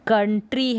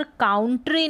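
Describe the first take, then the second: First: कंट्री with a short "uh" first vowel; first syllable of कंट्री rhymes with "fun"; correct pronunciation. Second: काउंट्री with an "ow" vowel in the first syllable; first syllable of काउंट्री rhymes with "down"; wrong pronunciation. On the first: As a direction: say कंट्री as KUN-tree. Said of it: "यहाँ पर कंट्री है". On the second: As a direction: say काउंट्री as COWN-tree. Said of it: "यहाँ पर काउंट्री नहीं है". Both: Shown as a demonstration.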